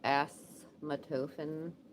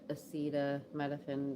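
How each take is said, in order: First: The word is said as 'asthmatofen'. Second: The word is said as 'acetaminophen'. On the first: The speaker calls it wrong. "I used to call it asthmatofen" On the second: The speaker calls it right. "now I say it properly"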